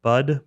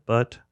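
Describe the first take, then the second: First: "Bud" ending in a voiced d. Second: "but" ending in a crisp t sound. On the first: Unsure of the idiom, "Bud" with a d. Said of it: "Is it what? Bud?". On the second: Unsure of the idiom, "but" with a t. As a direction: say "but" with a voiceless final t. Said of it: "I think it's butt". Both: Shown as a demonstration.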